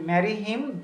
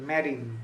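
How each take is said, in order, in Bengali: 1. দুটো আলাদা শব্দ, h এর ধ্বনি রাখা হয়। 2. একসাথে একটা শব্দের মতো জুড়ে যায়, h বাদ যায়। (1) "দুটো বর্ণ মানে দুটো শব্দ" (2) "একটা শব্দের মতো শোনা যাচ্ছে"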